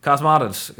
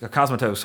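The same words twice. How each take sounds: First: "Cosmatos" said KAHZ-mah-tuhz, stress on first syllable; first guess at name. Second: "Cosmatos" said KAHZ-muh-toes, ending in a long oh and s; "Cosmatos" with a reduced middle and toes at the end; second guess at name. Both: Shown as a demonstration. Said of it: "however you pronounce his name".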